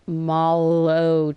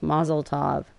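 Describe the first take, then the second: First: The first part sounds like molo. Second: The first part sounds like mazel. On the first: The speaker calls it right. "no, it's Molotov" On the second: The speaker calls it wrong. "I always say Mazel Tov. I guess I've been saying it wrong my entire life"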